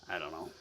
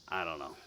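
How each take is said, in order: Both takes have the same delivery.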